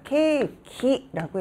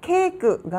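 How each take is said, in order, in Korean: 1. 이 단어는 'ki' 음절로 끝납니다. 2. 이 단어는 'keu' 음절로 끝납니다. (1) "케이키라고 해서" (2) "케이크가 아니라"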